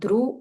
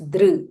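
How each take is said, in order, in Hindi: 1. व्यंजन के बाद 'ru' ध्वनि आती है। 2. व्यंजन के बाद स्वरात्मक 'ri' ध्वनि आती है। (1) "इट्स नॉट ध्रु" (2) "इट्स दृ"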